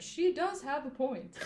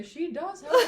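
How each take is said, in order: First: Sassy. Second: High, loud sassy quip. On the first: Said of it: "looked at his nails and said". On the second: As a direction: toss it off while checking your nails. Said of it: "Very sassy". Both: Retold or imitated.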